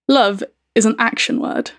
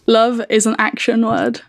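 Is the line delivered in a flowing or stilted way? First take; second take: stilted; flowing. First: The line is delivered in a stiff, choppy way. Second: The line is delivered in a smooth, natural way. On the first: It is meant to hide the song. "because I'm trying to do that to throw you off" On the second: It is meant to make the song easier to recognise. "I'll try and say it in not such a stilted way"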